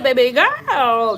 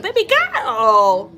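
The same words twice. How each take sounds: First: Put-on louder, slowed "Baby girl" with the stress on "girl"; [name] catchphrase. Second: Slow, drawn-out, louder "Baby girl" in a put-on voice; [name] catchphrase. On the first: Vlogger repeating [name]'s catchphrase to jog viewers' memory, slow and louder. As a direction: drawl "Baby girl" again like the famous catchphrase. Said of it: "She said". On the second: Vlogger imitating [name]'s catchphrase for viewers, slow and drawn out. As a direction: stretch out "Baby girl" like her signature line. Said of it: "She's like".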